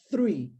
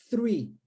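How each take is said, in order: First: "three" again with tongue between teeth; th sound. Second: "three" with unvoiced th, tongue between teeth; th sound. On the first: Teacher repeating three to show the th sound. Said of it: "Não é tree de árvore". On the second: Teacher demonstrating unvoiced th to students. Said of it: "Então, nós dizemos". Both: Shown as a demonstration.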